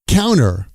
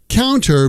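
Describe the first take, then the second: First: The T after the N is dropped. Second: The T after the N is clearly pronounced.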